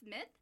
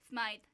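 First: The vowel is a short 'ih' sound. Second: The vowel is a long 'eye' sound. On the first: "I think it's Smith" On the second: "pronounced it as Smythe Street"

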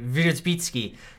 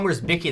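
First: The surname is said with a Polish pronunciation. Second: The surname is said with an English pronunciation. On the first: "in the Polish pronunciation" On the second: "That's our English pronunciation"

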